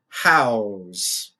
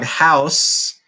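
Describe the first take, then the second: First: The word ends with a buzzing Z sound. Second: The word ends with a hissing S sound. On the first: The word is used as a verb. "I said house with that more of a Z sound instead of this S" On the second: The word is used as a noun. "Dog house is the noun"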